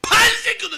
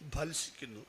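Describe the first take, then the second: First: The first syllable is pushed out with heavy force. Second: The word is said plainly, without extra force. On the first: "ബാ പറയുമ്പോൾ വയനാടൻ ചുരം കയറുന്ന പോലെ" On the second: "അങ്ങനെയൊന്നും പറയാറില്ല"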